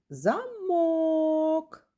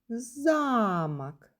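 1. Наголос на другому складі. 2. Наголос на першому складі. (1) "Другий" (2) "Так, перший"

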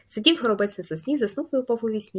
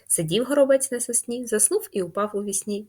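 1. Її читають якомога швидше. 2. Її читають у швидшому темпі. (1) "І прям дуже швидко, наскільки ви це зможете" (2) "Швидше"

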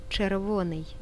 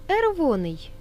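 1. Слово вимовлено з усіма звуками. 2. Перший звук слова пропущено.

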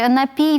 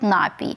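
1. Наголос падає на другий склад. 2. Наголос падає на перший склад. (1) "ніхто не говорить «напій»" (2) "всі кажуть «напій»"

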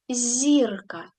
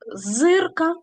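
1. Перша приголосна м'яка, пом'якшена. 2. Перша приголосна тверда, не пом'якшена. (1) "а зірка" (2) "не зирка"

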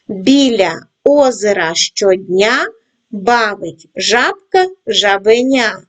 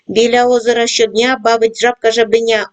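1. Читається у повільному темпі. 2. Читається у швидкому темпі. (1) "починаємо працювати із скоромовкою в повільному темпі" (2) "кожного разу пришвидшуємо темп"

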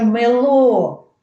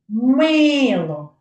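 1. Наголос на другому складі. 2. Наголос на першому складі. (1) "було б на другий склад" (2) "я виділяю голосом перший склад"

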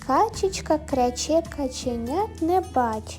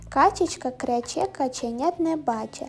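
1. Читають повільно й рівномірно. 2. Читають помітно швидше.

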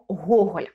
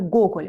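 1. Це ім'я вимовляють по-українськи. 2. Це ім'я вимовляють по-російськи. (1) "ми кажемо Гоголь" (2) "ми ж не кажемо Гоголь"

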